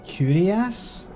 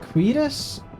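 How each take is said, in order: First: The word sounds like 'curious'. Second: The word sounds like 'queer-us'. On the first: The speaker calls it wrong. "I always pronounced it like curious" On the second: The speaker calls it right. "but it's apparently queerus"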